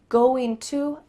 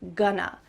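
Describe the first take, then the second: First: The two words are said fully and separately. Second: The two words are linked into one reduced form.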